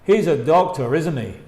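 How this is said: The pitch falls at the end of the tag. The speaker believes it and is only checking. "Con intonación que baja"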